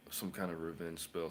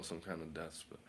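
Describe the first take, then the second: First: Said in the usual way. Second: Whisper. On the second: Acted. Naming spells, then whispers the darker one.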